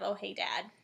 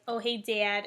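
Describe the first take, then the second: First: Said in the usual way. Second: Cleveland accent with the vowel of "Dad" emphasized. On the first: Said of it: "instead of". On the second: Shown as a demonstration. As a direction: lean on the A in "Dad", Cleveland style. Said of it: "what the Cleveland accent sounds like".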